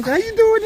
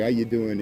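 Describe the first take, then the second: First: Very high squeaky pet voice; high sing-song greeting to a pug. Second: Said in the usual way. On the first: Real, not acted. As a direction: coo it as high as you can. Greeting dogs at party.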